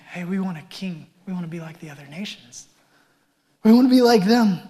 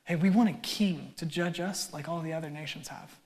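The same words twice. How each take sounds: First: Emphatic demand. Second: Entitled demand. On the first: Retold or imitated. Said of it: "They're emphatic". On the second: Shown as a demonstration. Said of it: "I want you to hear the offense in that".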